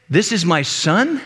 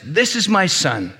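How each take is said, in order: First: "This is my son" said slowly, rising into a question; questioning echo. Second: Slow, measured heavenly declaration. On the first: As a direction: end "This is my son" on a doubting rise on "son". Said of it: "the one asking the question goes". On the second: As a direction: proclaim it slowly, as a statement. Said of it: "a voice from heaven says". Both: Acted.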